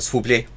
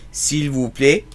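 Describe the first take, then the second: First: Some sounds are swallowed and the phrase shrinks. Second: Every sound of the phrase is clearly pronounced.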